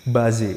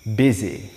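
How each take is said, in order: First: The first vowel sounds like 'ah'. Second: The first vowel sounds like 'ih'. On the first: The speaker calls it wrong. "Kesalahan yang sering terjadi adalah mereka membacanya bazi" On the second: The speaker calls it right. "So it's busy"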